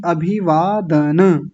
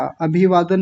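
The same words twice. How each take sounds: First: अभिवादन slowly as a-bhee-vaa-da-na; full final vowel. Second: अभिवादन run together, closed on n; clipped final vowel. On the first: Teacher correcting the class, अभिवादन ending in na. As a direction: draw out अभिवादन and release the final a. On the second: Teacher showing a common mistake, अभिवादन without final a. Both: Shown as a demonstration. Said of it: "अभिवादन नहीं".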